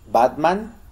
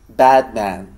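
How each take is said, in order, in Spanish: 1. La primera vocal es una A española normal. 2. La primera vocal se acerca al sonido inglés. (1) "Digo Batman con A" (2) "con el acercamiento al sonido"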